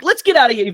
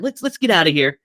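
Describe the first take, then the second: First: Urgent get-out. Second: Said in the usual way. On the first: Retold or imitated. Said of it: "He's like". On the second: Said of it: "he doesn't give the fear away".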